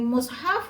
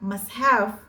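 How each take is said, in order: First: The first vowel is a rounded u sound. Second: The first vowel is an open a sound. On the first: "Yang mimnya di dhammah" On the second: "Wal fathu"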